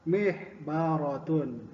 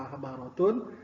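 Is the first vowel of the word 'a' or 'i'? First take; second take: i; a. First: The first syllable has the vowel 'i'. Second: The first syllable has the vowel 'a'. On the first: "ada juga yang menggunakan mih mihbaratun" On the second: "ada yang bilang mahbaratun"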